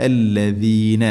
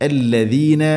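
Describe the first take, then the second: First: الذين with a clear ذ, tongue between teeth; correct dh. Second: الذين said with a plain d-like ذ, the wrong way; wrong dh sound. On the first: Teacher giving the correct الذين. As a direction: say الذين with a proper ذ. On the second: Teacher showing the mistaken الذين. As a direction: say الذين with the ذ not properly voiced. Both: Shown as a demonstration. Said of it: "الذين അല്ല".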